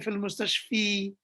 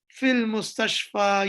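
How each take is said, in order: First: The last word ends with an 'i' vowel. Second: The last word ends with an 'a' vowel. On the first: The speaker calls it wrong. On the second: The speaker calls it right.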